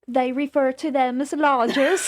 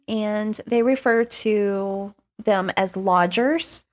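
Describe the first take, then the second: First: It is said in a put-on British accent. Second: It is said in the speaker's normal accent.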